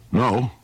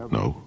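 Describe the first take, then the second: First: NO echoed high as a question. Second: Low, soft, short no; low denial. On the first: Cyclops challenges Odysseus's denial, questioning echo. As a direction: throw NO back higher, questioning. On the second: Odysseus answers the Cyclops' questioning, low denial. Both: Acted.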